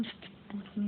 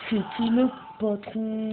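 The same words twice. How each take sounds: First: High but much softer repeat; soft taunting echo. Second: High, slow, drawn-out boast; playful taunt. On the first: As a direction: echo the boast quietly, keeping it high. (écho moqueur, aigu et tout bas) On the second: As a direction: stretch it out high like a cocky taunt. Taunting the game's enemies, repeated. (provocation fanfaronne, aiguë et traînante) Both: Pretend.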